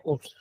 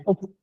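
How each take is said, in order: First: ओप्स said with an added s sound at the end, softly; wrong pronunciation. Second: ओप said with a clean final p and nothing after it; correct pronunciation. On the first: Teacher showing students the wrong reading ओप्स. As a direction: quietly say the mistaken ओप्स with the s. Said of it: "ओप्स नहीं पढ़ा जाएगा". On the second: Teacher showing students the right reading of ओप. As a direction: say ओप, stopping on the p. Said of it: "ओप, ओप्स नहीं पढ़ा जाएगा". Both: Shown as a demonstration.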